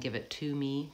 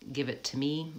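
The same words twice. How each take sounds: First: The word 'to' has a full, long vowel. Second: The word 'to' is reduced and short. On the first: The speaker calls it wrong. "rather than" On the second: The speaker calls it right. "It's often reduced because it's a structure word"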